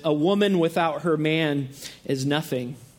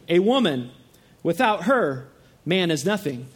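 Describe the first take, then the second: First: It is said straight through without pauses. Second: It has pauses after woman and after her.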